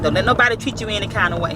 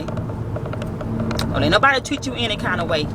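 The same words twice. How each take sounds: First: Said in the usual way. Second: Slow, drawn-out saying. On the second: Retold or imitated. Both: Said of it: "That's her saying".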